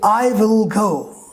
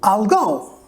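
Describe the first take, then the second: First: I will is said as two full words. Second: I will is contracted into one syllable. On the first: "if I say I will go" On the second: "Americans say I'll go"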